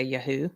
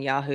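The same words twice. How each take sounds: First: "Yahoo" with a short flat "a", as in "yak"; guest's accented pronunciation. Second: "Yahoo" with an open "ah": YAH-hoo; usual pronunciation. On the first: Retold or imitated. Host imitating guest's accent, "Yahoo" said with short "a". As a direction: say "Yahoo" as YA-hoo, first vowel like "cat". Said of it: "with your accent, you, you say". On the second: Shown as a demonstration. Host clarifying a guest's accent, "Yahoo" said YAH-hoo. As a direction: say "Yahoo" as YAH-hoo, broad first vowel. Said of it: "with your accent, you, you say, instead of saying Yahoo".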